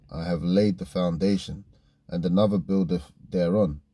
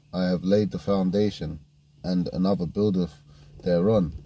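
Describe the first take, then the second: Both takes have the same delivery.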